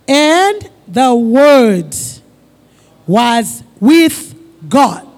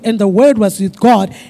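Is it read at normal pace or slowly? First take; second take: slowly; normal pace. First: It is read slowly. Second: It is read at a normal pace.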